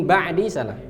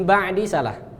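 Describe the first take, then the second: The two takes are said the same way.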